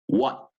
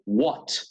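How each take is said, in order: First: The final T is held back without air. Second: The final T is released with audible air. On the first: "American ... no hago salir más aire" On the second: "británico ... Notan esa T al final"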